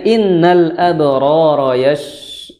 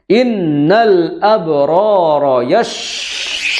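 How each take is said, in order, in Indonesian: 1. Bunyi sh-nya lembut dan halus, dengan bibir santai. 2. Bunyi sh-nya keras, dengan bibir berkibar dan muncrat. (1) "Jadi cara mengucapkannya innal abrara yash yash yash seperti itu" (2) "berkibar bibirnya karena mengucapkannya mantap ... sampai muncrat kemana-mana"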